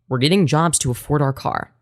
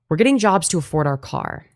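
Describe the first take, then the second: First: It is read in a changed, put-on voice. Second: It is read in a plain, normal voice.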